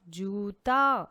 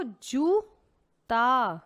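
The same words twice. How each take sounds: First: Said in the usual way. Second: Very slow, stretched syllables; slowly stretched teaching voice; drawn-out word. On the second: Shown as a demonstration. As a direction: draw the word out for the children. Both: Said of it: "तो क्या था वो?".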